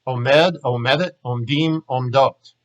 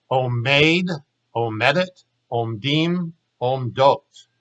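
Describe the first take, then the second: First: Quickly. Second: Unhurried model forms for students to repeat, each word given its own beat; slowly. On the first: Hebrew teacher reciting the full verb set at natural speed, quickly. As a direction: run Omed, omedet, omdim, omdot together in one quick breath. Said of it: "Now I'm gonna say 'em quickly". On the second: Hebrew teacher modeling present-tense forms for students to copy, slowly. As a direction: lay out omeid, omedet, omdim, omdot one at a time, unhurried. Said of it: "You try slowly". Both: Shown as a demonstration.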